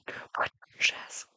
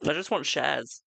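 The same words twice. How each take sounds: First: Slow playful whisper. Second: Said in the usual way. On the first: Pretend. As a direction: breathe it out slowly. Repeating plea as a whisper.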